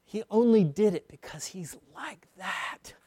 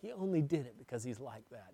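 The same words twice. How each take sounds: First: Only stressed, sentence falling. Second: Fast soft restatement; quick quiet repeat. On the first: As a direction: lean on the word only, then let it fall. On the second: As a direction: ONLY still stressed, quicker and much softer. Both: Shown as a demonstration.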